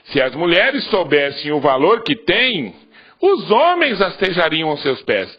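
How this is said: The pause comes after the word 'têm'. The women are the ones who have value. "colocar a vírgula aqui"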